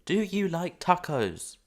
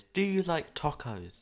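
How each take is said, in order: First: Very loud, high, slow question; insistent calling out. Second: Loud, drawn-out question, pitched up; calling out. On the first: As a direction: hammer out each word loudly and slowly. Repeats the question to Nova, louder. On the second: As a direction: put it slowly and loudly to someone far away. Calls out a question to Nova. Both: Real, not acted.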